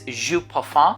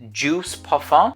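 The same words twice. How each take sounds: First: The name is pronounced with French sounds. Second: The name is pronounced with English sounds. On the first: "but it is" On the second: "in English you can just pronounce it"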